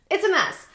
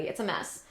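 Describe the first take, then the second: First: Much higher and louder, throwing up her hands; exasperated exclamation. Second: Said in the usual way. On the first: Real, not acted. To viewers, repeating her verdict on politics, exasperated outburst. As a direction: blurt it out the second time, fed up.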